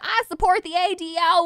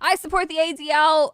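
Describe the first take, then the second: First: It is spoken in a Southern American accent. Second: It is spoken in a neutral accent.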